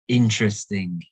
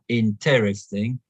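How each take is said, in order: First: The stress is on the first syllable. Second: The stress falls on a later syllable. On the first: The speaker calls it right. "the stress is on the first syllable" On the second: The speaker calls it wrong. "not interesting"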